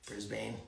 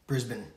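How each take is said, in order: First: "Brisbane" said softly, ending in a full "bane"; trying another way. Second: "Brisbane" said plainly, ending in a short "bən"; trying the name. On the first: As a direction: say "Brisbane" quietly, rhyming the end with "lane". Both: Shown as a demonstration. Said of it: "Is it Brisbane?".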